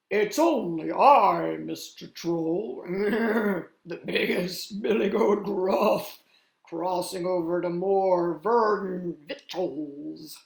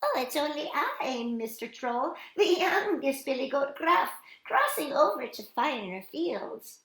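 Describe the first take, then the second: First: Loud, slow, hearty big-goat voice; big confident storybook goat; biggest billy goat. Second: High, small billy-goat voice; high-pitched storybook littlest goat; tiny little goat. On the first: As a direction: boom it out with a growling chuckle. Biggest goat answers the troll. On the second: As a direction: pipe up innocently like a tiny kid goat. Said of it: "said the little goat in a tiny voice". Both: A narrator's reading.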